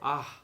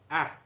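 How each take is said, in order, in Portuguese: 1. A vogal é suave e aberta. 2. A vogal é tensa, com a língua para a frente. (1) "Você fala um A mais suave" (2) "você vai ler o A com a língua mais para fora"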